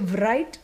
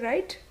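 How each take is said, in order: First: The word begins with a W sound before R. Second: The word begins with a plain R sound. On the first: The speaker calls it wrong. "we don't say right" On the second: The speaker calls it right. "The W is silent"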